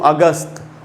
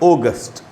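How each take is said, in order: First: The first vowel is an open 'a' sound. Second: The first vowel is a rounded 'o' sound. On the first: The speaker calls it wrong. "ये सब गलत उच्चारण है" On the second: The speaker calls it right. "इसका सही उच्चारण होगा ओगस्ट"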